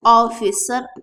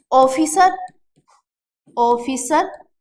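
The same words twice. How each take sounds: First: ऑफिसर on an open rounded 'aw', 'AW-fis-sar'; correct English vowel. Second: ऑफिसर with closed 'oh', 'OH-fee-sar'; wrong o vowel. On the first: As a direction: begin ऑफिसर with a clean aw. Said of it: "अब सही आ गया". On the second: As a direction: start ऑफिसर on a pure Hindi o. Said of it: "ये गलत उच्चारण है". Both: Shown as a demonstration.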